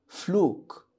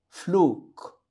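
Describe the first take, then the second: Both takes have the same delivery.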